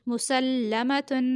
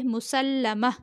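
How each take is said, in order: First: Said in the usual way. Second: मुसल्लमा as a stop form, breathy h to close; pausal ending. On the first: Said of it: "वक्फ की सूरत में". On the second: Shown as a demonstration. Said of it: "वक्फ की सूरत में पढ़ेंगे".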